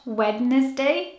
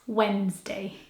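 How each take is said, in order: First: The middle D sound is pronounced. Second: The middle D sound is left out. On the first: The speaker calls it wrong. "It's not Wednesday" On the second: The speaker calls it right. "it has a silent D"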